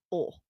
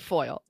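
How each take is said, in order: First: It is said in a Southern accent, like 'full'. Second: It is said with a plain general accent.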